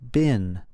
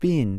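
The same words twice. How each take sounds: First: It is said with an American pronunciation. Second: It is said with a British pronunciation. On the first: "In American English, we say the past participle of be as been" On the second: "In British English, you would usually say"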